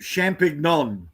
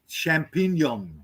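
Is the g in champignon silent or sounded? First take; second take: sounded; silent. First: The g is pronounced as a hard sound. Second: The g is silent, not pronounced. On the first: The speaker calls it wrong. "we look at it and go" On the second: The speaker calls it right. "G is silent"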